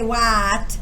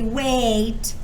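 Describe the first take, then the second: First: The vowel is a short A, as in cat. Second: The vowel is a long A, as in cake. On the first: "It doesn't say a. We don't say what" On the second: "It doesn't say a. It doesn't say wait"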